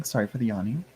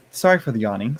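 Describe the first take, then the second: First: Softer mumbled repeat of Sorry; quieter repeat. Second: Said in the usual way. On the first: Real, not acted. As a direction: repeat it under your breath.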